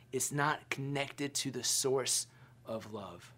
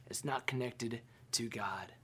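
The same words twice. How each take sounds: First: Said in the usual way. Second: Hushed whisper. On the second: Acted. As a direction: drop to a whisper on "It's not connected to God.". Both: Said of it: "repeated line, second whispered".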